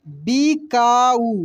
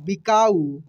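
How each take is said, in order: First: बिकाऊ slowly as bi, kaa, oo; syllable by syllable. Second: Said in the usual way. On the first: Shown as a demonstration. Teacher reading for learners, बिकाऊ slowly syllable by syllable. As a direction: stretch out each syllable of बिकाऊ. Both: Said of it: "अब direct पढ़ते हैं".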